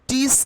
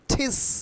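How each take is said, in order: First: The t is soft and unaspirated, like Bengali ট. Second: The t is breathy and aspirated, like Bengali ঠ. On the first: The speaker calls it wrong. "টিস কিন্তু এখন আর হবে না" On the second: The speaker calls it right. "তাহলে আমরা টিসের উচ্চারণ কিভাবে করব?"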